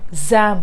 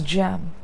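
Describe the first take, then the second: First: The word begins with a z sound. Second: The word begins with a j sound. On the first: The speaker calls it wrong. "make sure that you don't say zam for this" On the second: The speaker calls it right. "This is jam"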